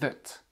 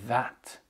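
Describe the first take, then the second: First: The vowel is a weak, reduced schwa sound. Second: The vowel is a full, open 'a' sound. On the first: "de manière plus réduite... ce sera le son e" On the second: "prononcer soit that avec le son a"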